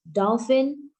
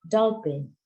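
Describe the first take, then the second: First: The middle consonant is an f sound. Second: The middle consonant is a p sound. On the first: This is the standard English pronunciation. The speaker calls it right. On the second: This is how Indonesian speakers say it. The speaker calls it wrong.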